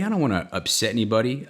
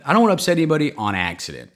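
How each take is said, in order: First: Said in the usual way. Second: Louder, faster insistent restatement; emphatic repeat. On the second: Real, not acted. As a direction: push the point harder the second time.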